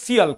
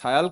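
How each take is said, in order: First: The first vowel sounds like 'ee'. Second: The first vowel sounds like 'eye'. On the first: "কেউ উচ্চারণটা সিয়াল করেন" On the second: "কেউ উচ্চারণটা সায়াল করেন"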